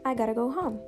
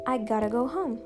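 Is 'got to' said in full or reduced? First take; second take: reduced; reduced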